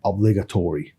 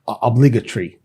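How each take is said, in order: First: It is said in an American accent. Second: It is said in a British accent. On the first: "الحاجات اللي شبيهه كده دايما ايه بتنطها" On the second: "في البريتش هتلاقي مختلف"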